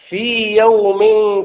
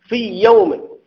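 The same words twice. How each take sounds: First: The long vowel of fee is held before yawm. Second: The y sounds merge into one doubled y. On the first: The speaker calls it right. "تقول في يوم كان في المد" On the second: The speaker calls it wrong. "لو أدغمت تقول في يوم"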